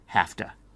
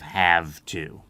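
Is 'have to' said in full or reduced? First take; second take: reduced; full. First: The words are squeezed together into a short form. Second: Both words are said fully and clearly. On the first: "Sometimes in English, we like to shorten things" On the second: "instead of have to"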